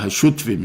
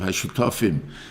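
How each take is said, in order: First: The word is said fast with a vowel dropped. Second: The word is said in full with every vowel. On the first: The speaker calls it wrong. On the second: The speaker calls it right.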